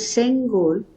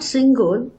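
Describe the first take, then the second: First: The first vowel sounds like 'e'. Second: The first vowel sounds like 'i'. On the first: The speaker calls it right. "it is Sengol" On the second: The speaker calls it wrong. "It is not Singol"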